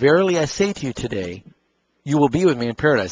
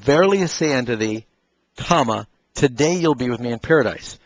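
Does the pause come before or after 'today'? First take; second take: after; before. First: The break comes after the word today. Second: The break comes before the word today.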